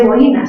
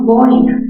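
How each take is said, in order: First: "boina" said as bo-Í-na; wrong stress on boina. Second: "boina" slowly, stressed on BOI; correct stress on boina. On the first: Teacher shows pupils what not to say, wrong stress. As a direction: split "boina" into three syllables, stressing the I. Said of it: "no se dice boina". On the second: Teacher corrects the word for her pupils, correct stress. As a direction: hit BOI in "boina", keeping oi one syllable. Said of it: "sino boina". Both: Shown as a demonstration.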